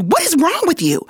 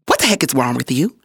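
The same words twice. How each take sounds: First: High-pitched mock disbelief; insistent, high rebuke; exasperated retold coach. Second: Low, quick imitated rebuke; mock-stern coach, pitched down; retold coach's scolding. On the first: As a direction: imitate a coach's incredulous scolding, pitch way up. Coach repeats scolding more insistently. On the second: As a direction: demand it like an exasperated coach.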